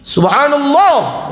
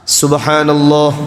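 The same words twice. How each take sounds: First: It is said with a varied, expressive pitch. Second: It is said on a flat, even pitch. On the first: It is meant to signal something to another person. The speaker calls it wrong. "tidak boleh Bapak Ibu" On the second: It is meant as remembrance of God. The speaker calls it right. "itu harus datar, niatnya zikir"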